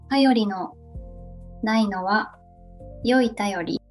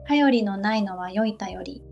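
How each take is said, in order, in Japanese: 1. ゆっくり言っています。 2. 普通のペースで言っています。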